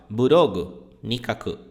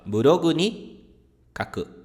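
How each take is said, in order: First: The particle is split off from the word before. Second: The particle is joined to the word before. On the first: The speaker calls it wrong. "Então você nunca fala burogu ni kaku" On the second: The speaker calls it right. "Você vai falar burogu ni kaku, a partícula está sempre grudada"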